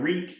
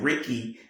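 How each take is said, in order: First: The surname has no final 'ee' sound. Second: The surname ends with an 'ee' sound. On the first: The speaker calls it wrong. "I was saying her name wrong" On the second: The speaker calls it right. "her actual name is pronounced Ricky"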